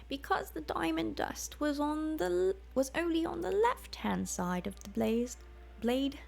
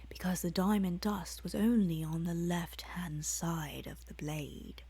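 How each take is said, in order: First: It is read in the alchemist woman's put-on voice. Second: It is read in the narrator character's own voice. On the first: The words belong to the invisible alchemist. The speaker calls it wrong. "I'm just gonna say it in her voice" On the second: The narrator speaks while being controlled by her. The speaker calls it right. "it's me talking"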